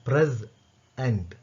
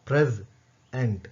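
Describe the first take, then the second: No difference in how they are said.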